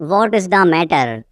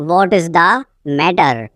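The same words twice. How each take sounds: First: Said in the usual way. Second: Teacher setting "matter" apart, falling; broken-up repeat. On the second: Shown as a demonstration. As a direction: pause before "matter".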